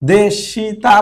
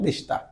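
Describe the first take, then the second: First: The vowel after 'sh' is clearly pronounced. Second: The vowel after 'sh' is dropped. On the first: "দেশিতা মূলত" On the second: "কিন্তু উচ্চারণের সময় দেশটা"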